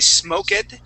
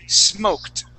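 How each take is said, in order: First: The ending is a separate extra syllable. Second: The ending is a plain t sound. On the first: The speaker calls it wrong. "we don't pronounce that E. We don't say smoked" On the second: The speaker calls it right. "We say smoked. ... that D will sound like a T"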